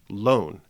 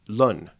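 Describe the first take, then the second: First: The vowel is a long o sound. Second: The vowel is a short u sound. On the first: This is the present-day pronunciation. "as we pronounce it" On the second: This is the early modern English pronunciation. "as Shakespeare would have pronounced it"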